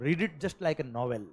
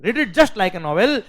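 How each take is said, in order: First: Slow, soft advice. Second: Louder, every word spaced slowly; slow emphatic repeat. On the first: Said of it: "मैं guarantee से कह रहा हूँ". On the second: Teacher urging students, slow, loud and emphatic. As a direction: drive the advice home word by word. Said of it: "ठीक है?". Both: Real, not acted.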